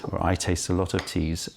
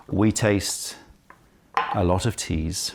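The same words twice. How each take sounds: First: I said a little firmer, correcting we; stress on I. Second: Said in the usual way. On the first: Real, not acted. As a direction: lean on the word I as a self-correction.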